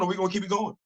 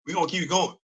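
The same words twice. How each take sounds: First: "or we gonna keep it going?" with a rising question tune on "going"; asking question. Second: "We gonna keep it going." settled with a falling tune on "going"; answering statement. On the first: Asking viewers whether to continue, questioning tune. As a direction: ask "keep it going?" as a soft question to the audience. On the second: Answering viewers himself, falling affirming tune. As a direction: answer your own question firmly. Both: Shown as a demonstration.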